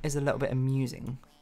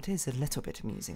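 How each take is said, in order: First: It is said in a flat, dead tone. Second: It is said in a lively, amused tone.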